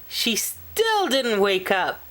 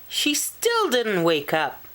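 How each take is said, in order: Both takes have the same delivery.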